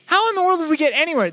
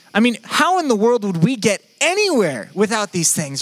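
First: Much higher and faster; excited rhetorical repeat; emphatic repeat. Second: Said in the usual way. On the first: Real, not acted. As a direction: fling the question up high in mock disbelief.

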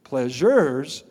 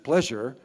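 First: "pleasures" stretched and punched, plural ending sounded out; stress on the plural. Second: Said in the usual way. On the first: Shown as a demonstration. Pastor correcting "just pleasure", "pleasures" given full emphatic weight. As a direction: lean hard on "pleasures" as more than one. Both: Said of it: "not just pleasure".

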